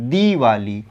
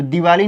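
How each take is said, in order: First: दीवाली with a held "dee" at the start; long ī. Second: दिवाली with a quick short first i. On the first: Teacher correcting it for students, long-ī दीवाली. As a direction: stretch the दी of दीवाली. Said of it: "उच्चारण अगर देरी से हो रहा है". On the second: Teacher showing students the misspelling, short-i दिवाली. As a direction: keep the दि of दिवाली brief. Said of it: "दिवाली नहीं". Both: Shown as a demonstration.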